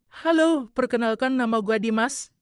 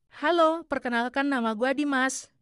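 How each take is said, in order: First: The voice is deeper and more manly. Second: The voice is higher and less manly. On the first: The speaker calls it right. "Nah, itu baru cowok" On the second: The speaker calls it wrong. "Masih kurang cowok deh"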